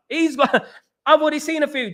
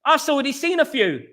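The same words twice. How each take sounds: First: Laughing it out, higher and quicker; laughing repeat. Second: Said in the usual way. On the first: Real, not acted. Streamer bragging to his chat about scouting, laughing. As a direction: giggle through the repeat.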